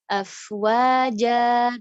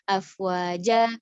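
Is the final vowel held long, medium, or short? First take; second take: medium; short. First: The final vowel is held for two counts. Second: The final vowel is cut too short. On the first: The speaker calls it right. "harusnya dibaca afwaja dua harokat" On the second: The speaker calls it wrong. "kurang, kurang gitu nanggung"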